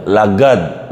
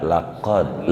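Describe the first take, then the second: First: "lagad" with a hard g for the qaf; qaf as gaf. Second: "laqad" with a deep throat q; proper qaf. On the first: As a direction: say "lagad" the dialect way. ("lagad" dengan g, bukan qaf) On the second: ("laqad" dengan qaf yang benar) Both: Shown as a demonstration. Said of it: "Kalau qaf jadi gaf".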